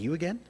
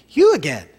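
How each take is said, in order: First: It sounds annoyed and put out. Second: It sounds happy and delighted.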